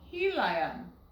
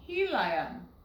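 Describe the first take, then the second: First: The middle vowel is a long I sound. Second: The same.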